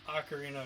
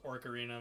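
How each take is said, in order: First: The word begins with an 'oh' sound. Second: The word begins with an 'or' sound. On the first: The speaker calls it right. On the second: The speaker calls it wrong.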